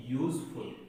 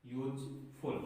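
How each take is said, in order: First: यूजफुल said with a clear yoo glide at the start; teacher modelling the word; pronunciation demo. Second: यूजफुल repeated more softly, yoo glide kept; teacher repeating the word softly; softer pronunciation demo. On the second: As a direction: say यूजफुल again quietly. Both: Shown as a demonstration. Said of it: "इसको क्या बोलते हैं?".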